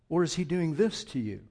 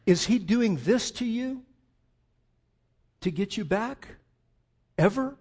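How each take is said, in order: First: Said in the usual way. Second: Higher and louder, pressing the question; pointed challenge. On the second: Shown as a demonstration. Preacher contrasting a pushing God, loud and high. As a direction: push it like an accusation. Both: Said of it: "holding his arms out wide".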